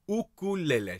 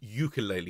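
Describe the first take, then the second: First: It is said with the Hawaiian-style pronunciation. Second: It is said with the common anglicized pronunciation. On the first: The speaker calls it right. "It's an ukulele. ... It's a much nicer sound" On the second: The speaker calls it wrong. "It's not a ukulele"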